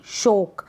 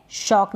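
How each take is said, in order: First: शोक with a closed long o; wrong pronunciation. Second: Said in the usual way. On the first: Shown as a demonstration. Teacher contrasts the misreading of shock, mispronounced शोक. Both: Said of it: "शॉक ना कि शोक".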